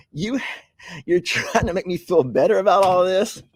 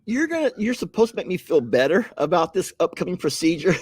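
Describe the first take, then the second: First: Laughing protest. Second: Said in the usual way. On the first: Real, not acted. To viewers joking about his colonoscopy, laughing protest. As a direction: squeal it out through laughter.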